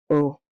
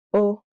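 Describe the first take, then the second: First: Oh settled down, final; downward inflection. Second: Oh with a high rising lift; oh sung up high like a question; upward inflection. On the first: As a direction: let the oh drop down. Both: Shown as a demonstration. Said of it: "two versions of each number".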